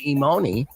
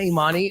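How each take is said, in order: First: The middle vowel sounds like 'oh'. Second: The middle vowel sounds like 'ah'. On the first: The speaker calls it wrong. "that's what I, how I pronounce it" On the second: The speaker calls it right. "Okay, yeah, Imani"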